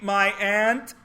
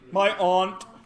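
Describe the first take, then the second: First: The vowel sounds like the one in 'ant'. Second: The vowel sounds like a broad 'ah'. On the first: "My ant is five foot eight. A U N T, my ant" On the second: "some of you say aunt"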